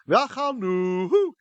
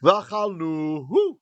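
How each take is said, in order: First: It is said in a put-on female voice. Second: It is said in his ordinary speaking voice. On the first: "doing a fake female voice" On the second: "I'll just talk normally"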